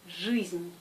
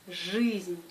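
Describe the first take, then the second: First: The vowel after the consonant sounds hard, like ы. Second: The vowel after the consonant sounds hard, like ы.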